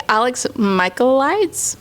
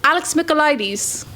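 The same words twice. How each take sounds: First: Michaelides as MY-kuh-lides, ending in one syllable; first-guess pronunciation. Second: Mock London accent, mick-uh-LIE-deez; British accent. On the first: Host introducing the thriller's author, first-guess pronunciation of Michaelides. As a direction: try Michaelides with a long MY start and a LIDES ending. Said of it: "I didn't". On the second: Host guessing from author living in London, British accent. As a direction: say the name in a playful British accent, laughing. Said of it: "You said it with the accent". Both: Shown as a demonstration.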